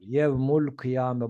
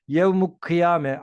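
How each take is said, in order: First: An l sound is heard before kıyame. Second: No l sound is heard before kıyame. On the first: The speaker calls it right. "Yevmul kıyame dedik arkadaşlar" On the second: The speaker calls it wrong. "hayır k burada kaf şemsi değil kameri bir harftir. Bu yüzden lam kalır"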